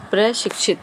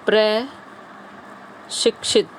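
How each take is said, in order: First: Said in the usual way. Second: "प्र... शिक्षित", very slow, long pause after प्र; slow dictation. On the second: Shown as a demonstration. Teacher gives students the question word, slowly in two parts. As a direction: split प्रशिक्षित after a drawn-out प्र.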